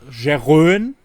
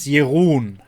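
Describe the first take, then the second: First: The name is read with English spelling sounds. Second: The name is said with Dutch sounds. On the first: The speaker calls it wrong. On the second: The speaker calls it right.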